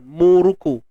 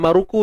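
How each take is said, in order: First: The first vowel is a u sound. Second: The first vowel is an a sound. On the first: The speaker calls it right. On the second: The speaker calls it wrong.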